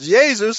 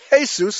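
First: It is said the way most European languages say it. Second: It is said the way Spanish speakers say it. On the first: This is the older, widespread pronunciation. "as most European languages still pronounce it" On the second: This is how Spanish speakers say the name. "as the Spanish pronounce it"

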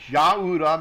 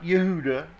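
First: The first vowel is an a sound. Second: The first vowel is an e sound. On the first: The speaker calls it right. "it's Yahuda, means Yah be praised" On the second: The speaker calls it wrong. "not Yehuda"

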